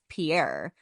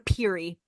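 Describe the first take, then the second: First: The name is pronounced like Pierre. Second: The name is pronounced like Peary. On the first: This is how a reader would guess it. "if you were to read it, you're like, oh, that's Pierre" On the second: This is how locals actually say it. "we're just like, oh, we gotta go to Peary"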